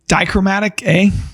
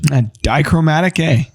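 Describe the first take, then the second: First: It is said hesitantly, without conviction. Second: It is said firmly, with conviction.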